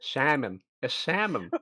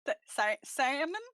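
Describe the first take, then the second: First: Plain falling model of Turnip's accent. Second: Put-on unsure rising try at Turnip's accent; Turnip's accent attempt. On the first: Shown as a demonstration. Turnip correcting the others' attempts, in own accent. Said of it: "Uh, Turnip's accent". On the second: Player practising the safe word, attempting Turnip's accent. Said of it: "trying that accent".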